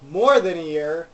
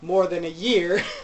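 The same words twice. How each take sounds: First: The stress falls on the word more. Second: The stress falls on the word year. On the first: It has been longer than just a year. The speaker calls it right. "Shouldn't he be saying more than a year" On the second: It is about a year, not some other unit of time. The speaker calls it wrong. "putting emphasis on year instead of more, it sounds weird"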